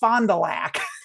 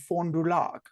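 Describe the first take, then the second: First: The name is pronounced in the local Wisconsin way. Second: The name is pronounced in the French way. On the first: "in Wisconsin, that's pronounced Fond du Lac" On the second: "that is technically the French way to pronounce it"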